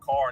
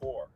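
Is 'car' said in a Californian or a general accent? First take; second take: general; Californian. First: The vowel is an open 'ah' sound. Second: The vowel is rounded, sounding like 'core'.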